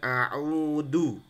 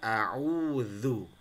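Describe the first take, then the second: First: The middle consonant sounds like a plain d. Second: The middle consonant is a soft dh sound. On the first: The speaker calls it wrong. "biasanya mereka akan a'udu" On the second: The speaker calls it right. "Padahal yang benar a'udzu"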